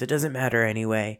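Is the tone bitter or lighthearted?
bitter. It sounds bitter and weary. Nothing is worth caring about. "being so sick and tired that nothing fucking matters"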